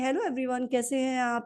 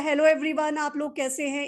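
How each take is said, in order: First: It is said in a quiet, timid voice. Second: It is said in a loud, confident voice.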